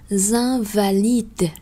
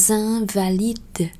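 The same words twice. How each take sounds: No difference in how they are said.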